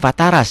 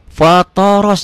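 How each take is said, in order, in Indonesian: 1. Vokal terakhir terdengar seperti 'a'. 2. Vokal terakhir terdengar seperti 'o'.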